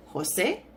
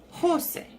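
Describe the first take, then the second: First: Jose with the last syllable stressed and rising; stress on second syllable. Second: Jose with the first syllable punched high, then dropping; stress on first syllable. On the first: Teacher showing students the accented name, stress on the end of Jose. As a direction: hit the end of Jose, hoh-SAY. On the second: Teacher contrasting the unaccented version, stress on the first syllable of Jose. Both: Shown as a demonstration. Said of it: "listen to the difference".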